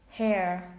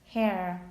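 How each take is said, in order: No difference in how they are said.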